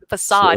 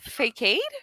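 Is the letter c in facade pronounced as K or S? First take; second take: S; K. First: The c is said as a soft s sound. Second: The c is said as a hard k sound. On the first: The speaker calls it right. "she goes" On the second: The speaker calls it wrong. "I pronounced, uh, facade wrong"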